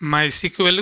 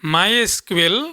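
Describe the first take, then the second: First: SQL is said as the word 'sequel'. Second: SQL is said as three separate letters.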